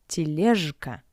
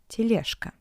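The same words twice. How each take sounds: First: The consonant before k is a voiced zh. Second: The consonant before k is a voiceless sh. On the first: The speaker calls it wrong. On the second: The speaker calls it right. "but тележка; sounds like sh"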